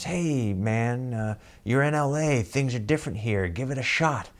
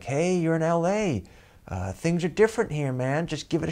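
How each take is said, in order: First: A hint of a sly tempter, slightly higher; shifty little inner voice. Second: Higher, sly tempting voice; shifty little inner voice. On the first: Little voice in his head urging him to try, lightly shifty. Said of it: "this shifty little voice". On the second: Retold or imitated. Inner voice urging him to stay on the date, sly and high. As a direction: egg him on like a devil on the shoulder. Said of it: "that little voice goes off".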